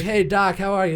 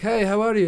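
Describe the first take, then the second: First: Said in the usual way. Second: Put-on loud, higher Russian-accented doctor; imitated Russian-accent greeting. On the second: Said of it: "like, Russian accent".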